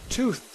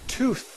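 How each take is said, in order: Both takes have the same delivery.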